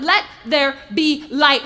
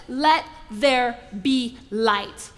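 First: Slow, much louder proclamation; bold command. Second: Slow, unhurried, calm command. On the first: Preacher voicing God at creation, slow and booming. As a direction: boom it out slowly. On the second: Preacher voicing God at creation, slow and calm. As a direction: let each word land slowly and calmly. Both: Acted.

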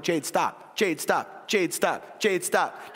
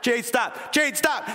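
First: Firm parent repeating a command, slowly building; repeated order, starting contained. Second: Raised, higher-pitched parental command; exasperated parent's order rising toward a yell; getting louder. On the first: Parent telling daughter to quit gymnastics, contained but building. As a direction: keep repeating it at talking level, inching up. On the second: Parent to tumbling daughter at bedtime, voice climbing louder. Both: Retold or imitated. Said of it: "I'm getting louder and louder and louder".

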